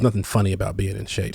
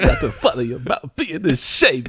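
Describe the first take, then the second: First: It is said in the speaker's ordinary voice. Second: It is said in an imitation of another voice.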